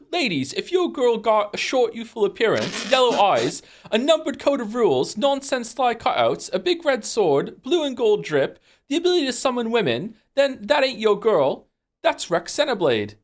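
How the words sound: It is read in Rex's British-sounding character voice.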